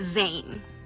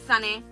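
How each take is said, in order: First: It is said with an English pronunciation. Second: It is said with a Spanish pronunciation.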